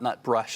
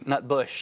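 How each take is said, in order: First: The second syllable is said with an r. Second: The second syllable is said without an r. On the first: The speaker calls it wrong. "not Nutbrush. I've been mispronouncing that" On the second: The speaker calls it right. "excuse me, Nutbush"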